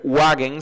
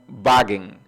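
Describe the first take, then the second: First: The word begins with a W sound. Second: The word begins with a V sound. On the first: The speaker calls it wrong. "no se dice Wagen" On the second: The speaker calls it right. "La W la pronuncian como V"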